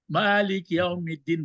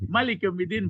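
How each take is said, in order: First: The first vowel of Malik is held long. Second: The first vowel of Malik is kept short. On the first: He holds full authority over all affairs. "kalau dibaca panjang" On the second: He is the king. "kalau dibaca nanti pendek"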